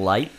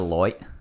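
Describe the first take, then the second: First: The vowel sounds like 'eye', a plain accent. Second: The vowel sounds like 'oy', an Australian accent.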